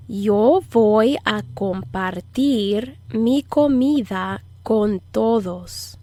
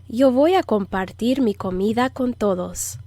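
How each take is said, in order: First: Slow, phrase-by-phrase Spanish model; measured, slow language-lesson delivery; slow teaching model. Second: Said in the usual way. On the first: Shown as a demonstration. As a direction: stretch each word out for learners to follow. Teacher models sentence slowly to repeat.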